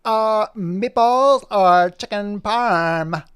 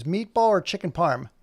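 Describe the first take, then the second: First: High, loud, very slow question; Poppy voice. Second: First slight take; barely voiced dog question; lightly voiced Poppy. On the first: Acted. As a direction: stretch it out like a pondering pup. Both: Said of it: "And Poppy goes".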